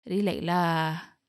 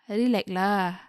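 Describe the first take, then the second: First: It is said in a lower, calmer tone. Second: It is said in a higher, exasperated tone.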